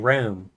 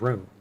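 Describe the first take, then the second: First: It is said with a Southern vowel. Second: It is said with a Midwestern vowel. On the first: "down here we say room" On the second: "in the Midwest, they might say room"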